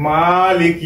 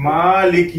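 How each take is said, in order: The two takes are said the same way.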